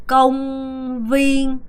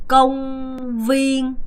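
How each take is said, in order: Both takes have the same delivery.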